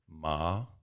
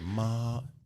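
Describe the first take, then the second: First: The pitch rises like a question. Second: The pitch stays high and level. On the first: "second tone. That's like you're asking a question" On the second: "all first tone"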